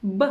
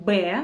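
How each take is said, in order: First: B as a very short "buh"; letter sound. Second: B said as Russian "beh"; letter name. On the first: Teacher showing the sound lips make, short letter sound buh. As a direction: say only the brief sound of B. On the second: Teacher naming the second Russian letter, letter name beh. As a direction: say B as a full syllable, beh. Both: Shown as a demonstration.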